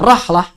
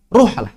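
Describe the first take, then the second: First: The first vowel is an a sound. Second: The first vowel is a u sound. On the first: "boleh dibaca rahlah" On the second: "boleh dibaca ruhlah"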